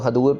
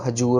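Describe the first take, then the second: First: The middle consonant is a 'd' sound. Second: The middle consonant is a 'j' sound. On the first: The speaker calls it right. "ये दद्दे के साथ है तो हदूर पढ़ना है इसको" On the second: The speaker calls it wrong. "हजूर नहीं पढ़ना"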